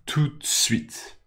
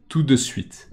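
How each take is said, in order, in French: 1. La syllabe du milieu est omise et les mots sont resserrés. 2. Les trois syllabes sont entièrement prononcées. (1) "Tout le monde dit tout de suite. ... Comme si on disait juste" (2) "Théoriquement, on dit tout de suite"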